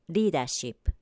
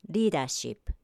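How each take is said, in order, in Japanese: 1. 最初の子音は、舌を素早く弾く音です。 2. 最初の子音は、舌を素早く弾く音です。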